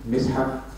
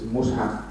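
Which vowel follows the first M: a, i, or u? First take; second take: i; u. First: The first vowel is an i sound. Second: The first vowel is an u sound. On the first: "two, Mis'haf" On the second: "One is Mus'haf"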